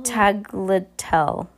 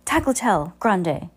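First: Tagliatelle spoken very slowly, syllable by syllable; careful pronunciation. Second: Tagliatelle Grande said in one smooth go, tagliatelle prominent; smooth pronunciation. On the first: Reader working out the word Tagliatelle, slow and careful. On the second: Reader settling on Tagliatelle Grande, said smoothly. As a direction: roll out Tagliatelle Grande fluently. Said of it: "Remember Ariana Grande". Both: Shown as a demonstration.

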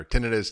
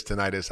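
First: Tinnitus stressed on the first syllable; TIN-ih-tus for Tinnitus; alternative pronunciation. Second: Tinnitus stressed on a long second syllable; tih-NIGH-tus for tinnitus, rhyming with arthritis; alternative pronunciation. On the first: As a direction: say Tinnitus as TIN-ih-tus, short second vowel. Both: Shown as a demonstration. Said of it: "I don't know how to say it".

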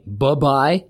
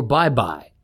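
First: First bye shortened to an unstressed buh; clipped first syllable, buh-bye. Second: Said in the usual way. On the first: Shown as a demonstration. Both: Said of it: "Do you think what's better, saying".

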